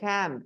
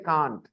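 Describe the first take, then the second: First: It is said with an American accent. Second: It is said with a British accent. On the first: "Americans say can't" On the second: "we say can't"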